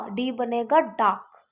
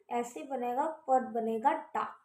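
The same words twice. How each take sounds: First: Slow, weighty "dark" at the end; teacher stressing "dark" for the class; stress on dark. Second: Said in the usual way. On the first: Shown as a demonstration. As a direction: lean on "बनेगा dark", slowly. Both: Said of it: "लेकिन डी कैसा बनेगा".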